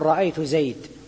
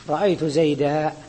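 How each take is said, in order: First: The last word ends on a bare consonant. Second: The last word ends with a long a. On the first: This is how one dialect group pauses on it. "يقفون عليه بالسكون" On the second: This is how most speakers pause on it. "لكن الجمهور يقولون"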